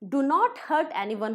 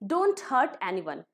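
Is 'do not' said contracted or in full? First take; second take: full; contracted. First: Do not is said as two full words. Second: Do not is contracted into one syllable, don't. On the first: "डू नॉट hurt anyone होता है" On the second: "spoken में डोंट hurt anyone"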